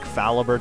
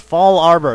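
First: The ending is pronounced like 'ibur'. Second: The ending is pronounced like 'arbor'. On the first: The speaker calls it wrong. "I used to always call it, like" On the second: The speaker calls it right. "that's it"

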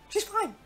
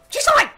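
First: It is said calmly, without anger. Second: It is said in an angry tone.

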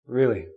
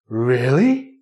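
First: The word is said in a doubtful tone. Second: The word is said in a shocked tone. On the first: The listener thinks the other person is lying. "That really means I think you're lying. I don't believe you" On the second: The listener can't believe the big news. "Means shocked"

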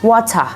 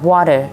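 First: It is said in a British accent. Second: It is said in an American accent. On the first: "ภาษาแบบอังกฤษในสำเนียงแบบ British" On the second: "สำเนียงอเมริกันก็จะแบบ"

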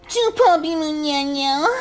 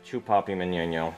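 First: It imitates the way the mom says it. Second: It is said in his normal voice.

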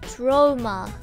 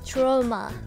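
First: It is said with English pronunciation. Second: It is said with English pronunciation.

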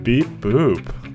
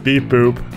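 First: It is said in a sultry voice. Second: It is said in a plain voice.

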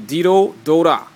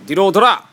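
First: It is said slowly. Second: It is said fast.

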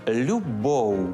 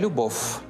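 First: The word ends in a soft u-like glide. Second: The word ends in a hard consonant sound. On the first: The speaker calls it right. "треба вимовляти щось середнє між «у» та «в»" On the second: The speaker calls it wrong. "не любов"

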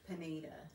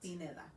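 First: The name is pronounced with English sounds. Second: The name is pronounced with Spanish sounds. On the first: The speaker calls it wrong. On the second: The speaker calls it right.

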